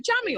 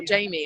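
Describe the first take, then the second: First: Jamie said as "Jammy"; mispronounced Jamie. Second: Said in the usual way. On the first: Shown as a demonstration. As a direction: say Jamie with a short a, like jam. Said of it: "Have I been calling you Jamie". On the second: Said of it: "so it looks like Jammy".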